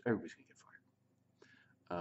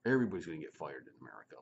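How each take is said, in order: First: Whisper. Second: Said in the usual way. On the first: Real, not acted. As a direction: whisper "everybody's gonna get fired" as an aside. Whispered repeat of prior line.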